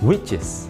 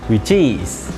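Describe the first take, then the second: First: The stress falls on the word which. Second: The stress falls on the word is. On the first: The speaker calls it right. "Penekanan ada pada kata which" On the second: The speaker calls it wrong. "bukan pada kata is"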